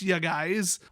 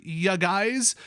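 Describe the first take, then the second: First: "ya guys" in a thick Wisconsin accent; drawn-out Wisconsin "ya guys" with a rise. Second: Playful Wisconsin accent "ya guys"; "ya guys" with a broad Wisconsin lilt. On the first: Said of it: "the Wisconsin accent". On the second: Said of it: "Get out your Wisconsin accent bingo card". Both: Shown as a demonstration.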